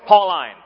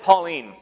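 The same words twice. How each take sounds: First: Its first part is said like 'Paul'. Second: It is said like the girl's name. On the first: The speaker calls it right. "no, Paul was a boy. It's Pauline" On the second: The speaker calls it wrong. "Because Pauline's a girl's name"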